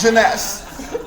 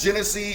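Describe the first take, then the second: First: The name is said like Jeunesse. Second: The name is said like Genesee. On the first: The speaker calls it right. "It's Jeunesse, okay?" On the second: The speaker calls it wrong. "I called it Genesee"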